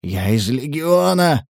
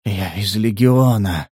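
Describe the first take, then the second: First: Slow, strained declaration; urgent plea. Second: Slow, low, fading strength; weakening voice. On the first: Prisoner pleading with his captors, urgent plea. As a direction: insist on it desperately, drawing it out. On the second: Wounded stranger repeating himself, weakening voice. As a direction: say it low and drawn out, losing strength. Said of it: "повторил незнакомец слабеющим голосом". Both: A narrator's reading.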